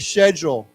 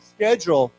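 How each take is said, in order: First: It is said in a British accent. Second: It is said in an American accent, with a K.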